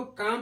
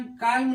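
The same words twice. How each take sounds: First: काम with long vowel straight into M; silent L. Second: काल्म with L before M; mistaken sounded L. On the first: Teacher shows how calm is read, काम without L. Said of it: "इसको काम पढ़ते हैं". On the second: Teacher warns off the misreading, काल्म with L. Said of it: "काल्म नहीं पढ़ते". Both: Shown as a demonstration.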